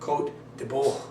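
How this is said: It is said with a French pronunciation. "say it like the French"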